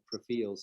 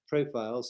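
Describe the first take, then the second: First: It is said in an old-fashioned imitated pronunciation. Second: It is said in an ordinary modern pronunciation.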